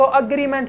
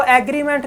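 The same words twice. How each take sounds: First: अग्रीमेंट with a short "a" at the start; अग्रीमेंट said "agriment", the right way; correct pronunciation. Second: एग्रीमेंट with an open "e" at the start; एग्रीमेंट said "egriment", the wrong way; wrong pronunciation. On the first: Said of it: "इसको अग्रीमेंट पढ़ना है". (अग्रीमेंट का सही उच्चारण, शुरू में छोटा "अ") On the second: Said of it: "इसको एग्रीमेंट नहीं पढ़ना". (एग्रीमेंट का गलत उच्चारण, शुरू में "ए") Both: Shown as a demonstration.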